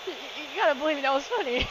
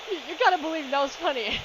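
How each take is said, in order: First: High, fast laughing plea; pleading fast through laughter. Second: Laughing plea. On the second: Pleading through laughter. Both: Real, not acted.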